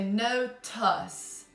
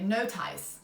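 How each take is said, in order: First: The second syllable has a weak schwa vowel. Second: The second syllable has a long I vowel. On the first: The speaker calls it right. "try the, the schwa sound" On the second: The speaker calls it wrong. "try the long I"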